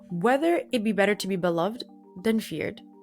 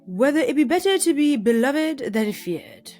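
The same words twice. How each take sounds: First: It is read in the speaker's natural accent. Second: It is read in a put-on British accent. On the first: "For serious this time" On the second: "that's the wrong accent because he was Brit he was British"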